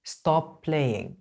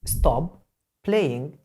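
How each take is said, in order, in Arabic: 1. الصوت المشترك يُمدّ ويُوصَل. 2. الكلمتان تُنطقان منفصلتين.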